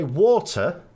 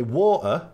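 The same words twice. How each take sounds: First: Water with a clear t, o as in law; water, long aw sound and the t spoken; first water. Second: Water with the t dropped, a glottal stop; water said as wa'er, t swallowed; water without the t. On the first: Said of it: "we pronounce water in three different ways". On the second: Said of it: "missing out the T". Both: Shown as a demonstration.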